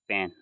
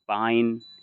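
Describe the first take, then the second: First: The vowel is a single 'ay'-like sound. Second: The vowel glides like the 'eye' sound. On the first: The speaker calls it right. "ए को ए से पढ़ेंगे" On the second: The speaker calls it wrong. "इस तरीके से नहीं पढ़ेंगे"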